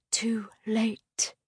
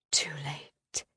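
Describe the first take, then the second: First: Fading unvoiced whisper. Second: Softer, lower dying whisper; faint whisper. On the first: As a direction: let it die to a whisper. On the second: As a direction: barely breathe it, lower still. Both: A narrator's reading. Repeated despairing thought, fading.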